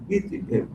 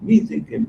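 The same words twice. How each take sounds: First: Fading to a whisper. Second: Said in the usual way. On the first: Retold or imitated. Repeated phrase fades to breath.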